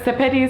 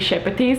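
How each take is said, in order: First: The name is said in an English way. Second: The name is said in a Lithuanian way. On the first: This is how the author herself says it. "she pronounces it as if it's English version" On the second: This is the original form, meaning a brush. "actually would be"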